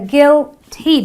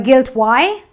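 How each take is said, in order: First: The final vowel is a long E. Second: The final vowel is not a long E. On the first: The speaker calls it right. "this again gives me the long E sound" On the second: The speaker calls it wrong. "not a guilty or a guilt Y"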